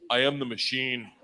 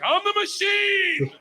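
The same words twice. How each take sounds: First: Said in the usual way. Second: Very high, drawn-out yell; triumphant bellow. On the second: Retold or imitated. Young student telling a Russian gangster who he is, triumphant bellow. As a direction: belt it out like a battle cry, stretching the last word. Repeats his botched line to gangster.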